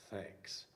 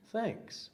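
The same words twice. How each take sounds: First: Breathy hushed thank-you; whispered thanks. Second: High, bright little thanks; a squeaky delighted thank-you; surprised thanks. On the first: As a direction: barely whisper it. Bear thanks Badger. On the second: Bear thanks Mouse. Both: Acted.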